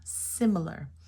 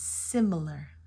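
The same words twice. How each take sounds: First: The first vowel is a short I sound. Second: The first vowel is a short I sound.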